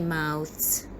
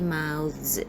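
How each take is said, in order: First: The th sound is voiceless, as in thin. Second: The th sound is voiced, as in this. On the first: The speaker calls it wrong. "We don't say mouths" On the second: The speaker calls it right. "we have to say mouths"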